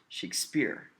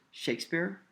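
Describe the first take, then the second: First: "Shakespeare" wrongly stressed on SPEARE; weak Shake, punched SPEARE in "Shakespeare"; stress on second syllable. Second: "Shakespeare" stressed on SHAKE; stress on first syllable. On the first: Teacher offers the wrong option, stressing SPEARE in "Shakespeare". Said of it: "We accent the first syllable". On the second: Teacher asks which syllable is accented, stressing SHAKE in "Shakespeare". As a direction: SHAKE strong, speare lighter in "Shakespeare". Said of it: "which syllable is accented a little more". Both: Shown as a demonstration.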